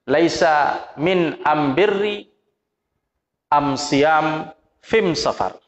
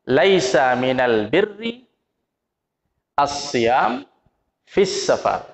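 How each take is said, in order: First: The article is pronounced with an m sound. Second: The article is pronounced with an l sound. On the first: It matches the listener's own regional dialect. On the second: It is the usual standard form.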